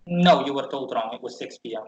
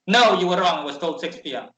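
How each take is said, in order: First: Said in the usual way. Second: Rude. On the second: Retold or imitated. Receptionist brushing off the traveler, rude and curt. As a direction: put the traveler in their place. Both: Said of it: "But in a really rude way".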